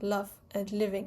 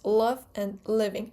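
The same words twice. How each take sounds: First: The L sounds are light and clear. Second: The L sounds are dark and velarized. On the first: The speaker calls it wrong. "It's not love and living" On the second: The speaker calls it right. "But in American English, it's almost always dark L"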